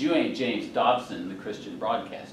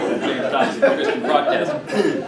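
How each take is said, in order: First: Deadpan. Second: Louder, breaking into laughter; laughing. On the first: Retold or imitated. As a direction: hand down a dry verdict. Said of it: "She looks at me deadpan". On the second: Real, not acted. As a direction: laugh through the punchline. Laughing at his own joke.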